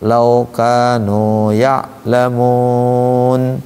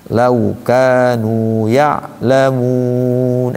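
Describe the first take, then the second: First: The vowel is said without lip rounding. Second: The vowel is said with pushed-out rounded lips. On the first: The speaker calls it wrong. "Enggak enak kan?" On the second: The speaker calls it right. "Enak kalau dimonyongin itu"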